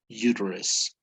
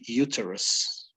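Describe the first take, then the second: First: It is said with an American accent. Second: It is said with a British accent.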